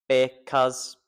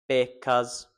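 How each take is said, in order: No difference in how they are said.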